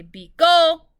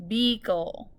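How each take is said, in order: First: Beagle with gle said loud; stress on last syllable. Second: Said in the usual way. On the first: Shown as a demonstration. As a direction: say beagle punching the final gle. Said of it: "this has to be unaccented". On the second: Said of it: "we say".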